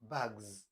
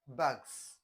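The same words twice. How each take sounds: First: The word ends with a buzzing z sound. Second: The word ends with a hissing s sound. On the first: The speaker calls it right. "this s will change to z" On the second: The speaker calls it wrong. "It's not bags"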